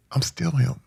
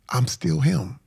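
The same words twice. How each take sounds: First: A real, moved whisper to himself; hushed whisper. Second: Said in the usual way. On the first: Real, not acted. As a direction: breathe it out in a whisper, close and private.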